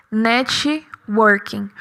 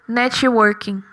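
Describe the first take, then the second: First: Networking, slow and soft, no extra i; English networking. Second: Networking with an extra i, netchi-working; Brazilianised networking, netchi-working; Brazilian networking. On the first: Teacher modelling the native Networking. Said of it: "a pronúncia original seria networking". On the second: Teacher showing how Brazilians say networking. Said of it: "Nós geralmente colocamos o I no final". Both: Shown as a demonstration.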